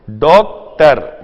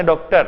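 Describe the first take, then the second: First: doctor loudly divided into डॉक and टर; loud teaching demo of doctor, broken after डॉक; split into syllables. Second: Said in the usual way. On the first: Shown as a demonstration. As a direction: punch each half of doctor separately. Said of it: "तो डॉक एक part और टर दूसरा part". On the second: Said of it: "बोला क्या आपने".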